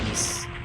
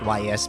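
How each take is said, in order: First: The name is said as one word, 'east'. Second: The name is spelled out as two letters. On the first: The speaker calls it right. "you actually pronounce that as East" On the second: The speaker calls it wrong. "I used to call it Y S because uh, I'm an I'm an uncultured bastard"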